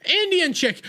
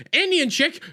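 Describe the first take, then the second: No difference in how they are said.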